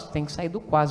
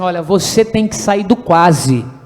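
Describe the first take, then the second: First: It is said weakly, without conviction. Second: It is said firmly, with authority.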